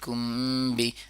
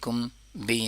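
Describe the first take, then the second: First: The two words run together without a break. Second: The two words are split apart by a break. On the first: The speaker calls it right. "या तो ऐसे करें या तो करें कि कुम बि" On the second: The speaker calls it wrong. "लेकिन कुम बि नहीं होना चाहिए, ऐसे नहीं होना चाहिए। ... मीम और बा को कभी एक दूसरे से जुदा नहीं करते हैं।"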